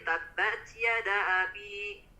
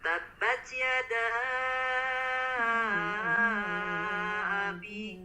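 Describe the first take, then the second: First: The vowel is not lengthened at all. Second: The vowel is held for a moderate length. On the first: The speaker calls it wrong. "tidak dibaca panjang" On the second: The speaker calls it right. "Cukup empat harokat"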